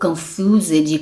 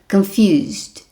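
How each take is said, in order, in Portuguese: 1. A terminação é pronunciada como uma sílaba extra. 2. A terminação não é uma sílaba extra separada. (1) "Não fale" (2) "Então olha a minha pronúncia"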